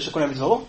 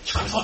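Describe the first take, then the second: First: The phrase is spoken aloud in a normal voice. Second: The phrase is spoken in a whisper. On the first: "נגיד בטון הזה" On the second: "שמישהו לוחש כזה"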